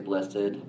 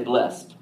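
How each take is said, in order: First: It is said the formal, old church way. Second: It is said the casual, everyday Southern way. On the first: "we're from the South, and we don't say blessed" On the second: "We say blessed"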